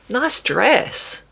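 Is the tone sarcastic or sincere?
sincere. It is said in a warm, sincere tone. The speaker genuinely likes the dress. "a compliment"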